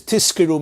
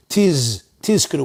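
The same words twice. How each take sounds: First: "tizkiru" said as tiskiru; tizkiru, voiceless s before k; s for zayin. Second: "tiz" with a held z, then tizkiru; tizkiru, clearly voiced z; clear zayin. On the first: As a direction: devoice the z in tizkiru to s. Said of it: "means you should get rewarded". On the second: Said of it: "you have to be very clear". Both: Shown as a demonstration.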